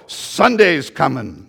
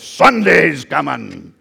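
First: It is said in a plain voice. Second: It is said with a preacher's growl.

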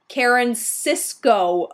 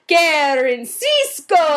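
First: It is said in a plain, ordinary voice. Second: It is said in a put-on accent.

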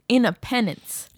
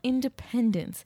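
First: The d consonant is dropped. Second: The d consonant is clearly pronounced. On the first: "getting rid of hard consonants like T's and D's" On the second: "it's not Independence"

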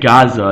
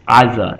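First: The word begins with a hard G sound. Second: The word begins with a guttural throat sound. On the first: The speaker calls it wrong. "we say Gaza in English" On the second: The speaker calls it right. "It simply starts with an ayin. So it's Aza"

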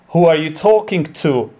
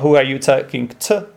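First: The final word is full with a strong vowel. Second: The final word is reduced with a weak vowel. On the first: The speaker calls it right. "the preposition to is used at the end of a question" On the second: The speaker calls it wrong. "Not who are you talking to"

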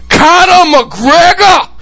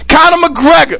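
First: It is said in an Irish accent. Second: It is said in his usual accent.

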